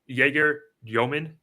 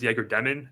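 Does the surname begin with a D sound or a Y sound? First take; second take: Y sound; D sound. First: The surname begins with a Y sound. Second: The surname begins with a D sound. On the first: The speaker calls it right. "I believe it's Jaeger Yomin" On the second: The speaker calls it wrong. "I thought it was Jaeger Demon"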